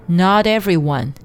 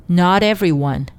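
No difference in how they are said.

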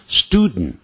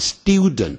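First: It is said in an American pronunciation. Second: It is said in a British pronunciation. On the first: "但美式没有那个 e 的音，也就是 student" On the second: "英式念法念 student"

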